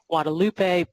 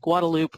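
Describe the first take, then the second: First: The name is said with Spanish pronunciation. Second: The name is said with Texan English pronunciation. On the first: "the actual Spanish pronunciation should be the Guadalupe" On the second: "if you're from Texas, you call it the Guadalupe"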